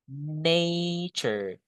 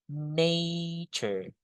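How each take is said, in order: The two takes are said the same way.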